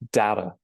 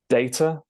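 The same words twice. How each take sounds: First: It is said in an American accent. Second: It is said in a British accent. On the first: "and then the American version" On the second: "starting with the British version"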